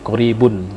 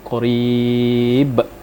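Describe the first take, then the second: First: The word ends with an added 'un' sound. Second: The word ends on a bare 'b' sound. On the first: The reading continues without stopping. "Kalau diwasolkan langsung qaribun" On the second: The reader stops at this word. "jadi kalau dia berhenti qarib"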